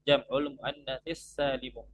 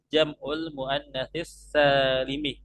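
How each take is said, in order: First: The last word ends with a u vowel. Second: The last word ends with an i vowel. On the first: The adjective describes the plural itself. The speaker calls it right. "Maka yang benar cara bacanya adalah" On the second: The adjective describes the feminine noun. The speaker calls it wrong. "banyak orang yang salah membaca"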